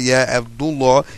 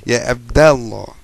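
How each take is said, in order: First: The vowel after 'Abd' is a 'u'. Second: The vowel after 'Abd' is an 'a'. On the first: The speaker calls it wrong. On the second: The speaker calls it right. "that mudaf gets a fetha"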